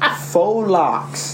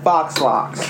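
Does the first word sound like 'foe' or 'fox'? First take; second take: foe; fox. First: The first word sounds like 'foe' with no x. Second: The first word sounds like 'fox' with an x. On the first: The speaker calls it right. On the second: The speaker calls it wrong. "not fox locks"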